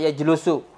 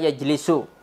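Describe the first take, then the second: First: The second vowel is 'u'. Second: The second vowel is 'i'. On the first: The speaker calls it wrong. "jangan jalasa yajlusu" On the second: The speaker calls it right. "Itu antum harus hafalkan"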